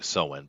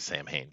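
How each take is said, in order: First: The name sounds like 'sow-en', two short syllables. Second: The name sounds like 'sam-hain', spelled out literally. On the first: This is the original pronunciation. "I'm just pronouncing it correctly by calling Soen" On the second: This is the pronunciation most people know. "most people recognize Sam Hain"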